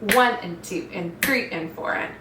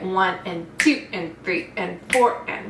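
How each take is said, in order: First: The stress falls on one and three. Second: The stress falls on two and four.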